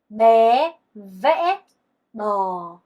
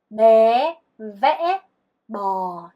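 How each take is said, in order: The two takes are said the same way.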